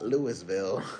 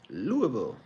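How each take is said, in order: First: The name is said with every syllable spelled out. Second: The name is said in a clipped, reduced way. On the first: The speaker calls it wrong. "Not Louisville" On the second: The speaker calls it right. "You gotta say it like that"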